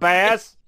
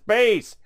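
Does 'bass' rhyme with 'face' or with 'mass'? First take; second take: mass; face. First: The vowel rhymes with mass. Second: The vowel rhymes with face. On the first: The name refers to the fish. The speaker calls it wrong. "not Bass" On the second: The name refers to the low musical range. The speaker calls it right. "It's Bass"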